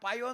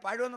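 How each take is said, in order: First: The word is slurred, like a toothless mouth. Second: The word is pronounced clearly with all its sounds.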